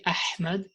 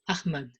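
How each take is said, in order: First: The H is a deep sound from the throat. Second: The H is a plain sound, not from the throat. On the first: This is the name's original pronunciation. The speaker calls it right. "They don't say Ahmad" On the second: This is how some foreign speakers say the name. The speaker calls it wrong. "A lot of German people they pronounce my name as Ahmad"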